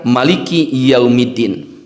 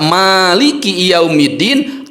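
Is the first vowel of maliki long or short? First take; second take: short; long. First: The first vowel is kept short. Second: The first vowel is held long. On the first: "tidak ada alifnya kita baca" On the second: "dengan memakai alif kita baca"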